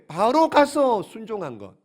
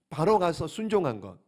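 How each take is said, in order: First: "바로 가서" drawn out and loud; emphatic key point. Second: Said in the usual way. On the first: Real, not acted. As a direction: hammer home "바로 가서", slowly and forcefully. Key point stressed, then repeated quietly. ("바로 가서"를 길고 힘주어 강조)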